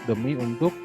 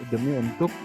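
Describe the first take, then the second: No difference in how they are said.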